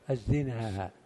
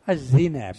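First: The final vowel is long. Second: The final vowel is short. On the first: This is the Tamimi form of the word. "لغة تميم كما يقول علماء اللغة بالمجد" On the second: This is the Hijazi form of the word. "الزنا بالقصر"

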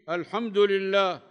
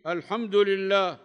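First: The d takes u and the l takes i. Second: The same.

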